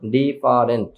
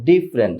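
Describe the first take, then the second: First: The word is said in three syllables. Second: The word is said in two syllables. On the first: The speaker calls it wrong. "আমরা তিনটে স্টেপে বলি ডিফারেন্ট" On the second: The speaker calls it right. "But ওরা বলে ডিফারেন্ট, just ডিফারেন্ট"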